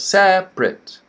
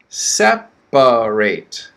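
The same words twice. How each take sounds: First: The word is said with two syllables. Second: The word is said with three syllables. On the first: It is the adjective meaning apart. "Two syllables" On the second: It is the verb meaning to move apart. "Three syllables"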